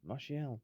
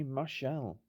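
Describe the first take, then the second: First: Martial said as mar-shee-ell, three syllables. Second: Martial said as mar-shell, two syllables. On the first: Correcting the scorer's name, Martial as mar-shee-ell. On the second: Commentating a goal, Martial said as mar-shell. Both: Shown as a demonstration.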